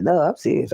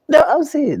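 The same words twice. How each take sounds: First: Said in the usual way. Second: Much higher and louder, exclaimed; high loud emphatic "No, I'm serious"; loud insistence. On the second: Real, not acted. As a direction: burst out insisting she means it.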